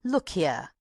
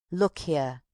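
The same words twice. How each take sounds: First: Urgent, insistent call; agitated. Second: Calmed. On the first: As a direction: press them to listen. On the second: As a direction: settle down, say it gravely. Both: A narrator's reading. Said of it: "She suddenly calmed herself".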